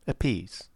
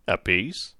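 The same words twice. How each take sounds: First: Apiece falling and softer; quiet final Apiece; calm confirmation. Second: Apiece asked with a rising tune; surprised query on Apiece; questioning rise. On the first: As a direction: settle it, Apiece with a falling tune. Fogg confirms the price. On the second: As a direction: check the price, Apiece rising at the end. Captain checks the price. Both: A narrator's reading.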